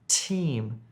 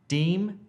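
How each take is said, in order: First: The word begins with a t sound. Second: The word begins with a d sound. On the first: The speaker calls it right. "to a t" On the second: The speaker calls it wrong. "you need to change that d sound to a t"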